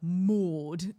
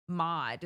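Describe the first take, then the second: First: Mood with a rounded, front-of-mouth vowel, laughing; forward English vowel. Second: Mod said mahd, vowel in the middle of the mouth; American mod. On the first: Mocking the English Maud as forward and round. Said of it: "so far forward". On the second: Explaining how Americans say Maud, middle-of-mouth vowel. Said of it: "that's how we would say it in America". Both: Shown as a demonstration.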